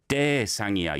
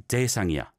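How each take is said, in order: First: 대상이야 with a big emphasis on 대; exaggerated stress on first syllable 대 in 대상이야; overstressed 대. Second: Said in the usual way. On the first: Shown as a demonstration. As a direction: lean too hard on the 대 of 대상이야. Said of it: "a big emphasis on the 대". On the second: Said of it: "You don't need to give a".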